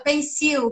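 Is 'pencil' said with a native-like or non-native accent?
non-native. Pencil is said with a non-native accent. The speaker gives a weaker impression. The speaker calls it wrong. "quando você não fala pencil"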